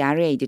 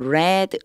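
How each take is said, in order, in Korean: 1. 이 단어는 긴 'ee' 모음으로 발음됩니다. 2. 이 단어는 짧은 'e' 모음으로 발음됩니다. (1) "read는 현재형일 때, 동사 원형일 때" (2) "그리고 read, read 이렇게 읽어져요"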